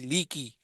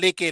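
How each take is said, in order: First: The vowels sound like 'i'. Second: The vowels sound like 'e'. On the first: The speaker calls it right. "लाम जेर ली, काफ जेर की" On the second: The speaker calls it wrong. "माँ लेके नहीं है"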